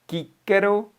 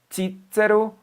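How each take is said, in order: First: The word begins with a k sound. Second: The word begins with a ch sound. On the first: "pode ser pronunciado kíquero" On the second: "Um grupo pronuncia de che, chi"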